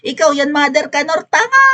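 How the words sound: It is said with intense, exasperated emotion.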